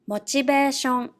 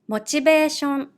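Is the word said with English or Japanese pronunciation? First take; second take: Japanese; Japanese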